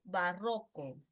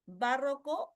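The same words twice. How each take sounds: First: "barroco" stressed on the middle syllable RRO; slow second option, "barroco" with stress on RRO. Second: "barroco" stressed on BA; slow, questioning "barroco" with stress up front; stress on first syllable. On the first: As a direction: say "barroco" as ba-RRÓ-co. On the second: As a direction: say "barroco" as BÁ-rro-co, last vowel left hanging. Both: Shown as a demonstration.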